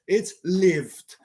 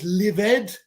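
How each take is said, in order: First: The ending adds no extra syllable. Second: The ending is said as an extra syllable. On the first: The speaker calls it right. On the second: The speaker calls it wrong.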